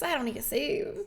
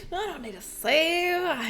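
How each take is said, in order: First: Said in the usual way. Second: Slow drawn-out I don't need to save, I higher; stretched I don't need to save. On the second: Retold or imitated. Mocking her past self to chat, drawn out. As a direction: drag out I don't need to save, mock-confident.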